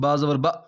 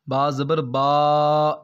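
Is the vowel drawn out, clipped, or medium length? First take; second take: clipped; drawn out. First: The vowel is cut off abruptly with a jerk. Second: The vowel is stretched out for too long. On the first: "इतना जल्दी भी नहीं पढ़ना कि झटका महसूस हो" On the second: "इस तरह नहीं पढ़ना आपने, ये आपने लंबा कर दिया है"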